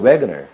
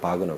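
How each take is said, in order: First: The name is said English style, with a W sound. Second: The name is said German style, like bahg-ner. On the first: "스펠링대로 영어식으로 읽었을 때는" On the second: "이때는 바그너죠"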